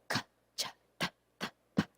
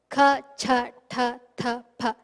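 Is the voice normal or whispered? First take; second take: whispered; normal. First: The syllables are whispered with breath only. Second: The syllables are spoken with a normal voice.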